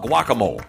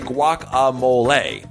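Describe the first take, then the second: First: It is said to sound like whack-a-mole. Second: It is said in a simpler, easier way. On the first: "please do not ever call it guacamole" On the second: "Or if it's easier, you can say guacamole"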